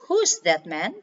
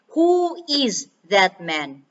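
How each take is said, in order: First: Who and is are joined into one word. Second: Who and is are said as two words. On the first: The speaker calls it right. "You could say" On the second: The speaker calls it wrong. "instead of saying"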